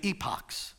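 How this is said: The word is pronounced the British way. "in Britain, you say epochs"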